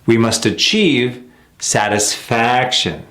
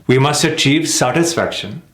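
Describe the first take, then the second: First: Slow it down, shape each stress; slow correct rhythm. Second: "We must achieve satisfaction" brisk, weight on "achieve"; quick wrong rhythm. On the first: Teacher modelling the natural rhythm slowly. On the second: Teacher showing the unnatural rhythm of the sentence. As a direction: rush through, hit "achieve". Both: Shown as a demonstration.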